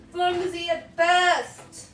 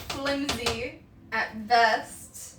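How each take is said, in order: First: Drawn out, higher and louder; slow, high, loud repeat. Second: Drawn-out slow. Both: Shown as a demonstration.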